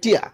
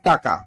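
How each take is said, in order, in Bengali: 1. tia বলা হয়েছে, মাঝে কোনো ব্যঞ্জনধ্বনি নেই। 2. taka বলা হয়েছে, মাঝে k আছে। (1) "নোয়াখালী কয় টিয়া" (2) "প্রভৃত উচ্চারণ টাকা"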